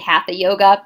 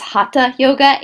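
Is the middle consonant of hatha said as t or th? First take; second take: th; t. First: The middle consonant is an English th sound. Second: The middle consonant is a t sound, no th. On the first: The speaker calls it wrong. "in America, people say hatha yoga" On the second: The speaker calls it right. "do not make the th sound in Sanskrit"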